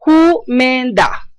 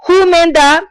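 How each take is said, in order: First: Who men da said very slowly; slowed Chinese word. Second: Who pitched high, then men da falling; Chinese word, high start. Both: Shown as a demonstration. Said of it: "vuelvo y repito la palabra".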